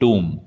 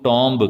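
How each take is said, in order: First: The b sound is silent. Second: The b sound is pronounced. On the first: The speaker calls it right. "इसमें बी silent है" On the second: The speaker calls it wrong. "काफी लोग टॉम्ब करते हैं, पर ये गलत उच्चारण है"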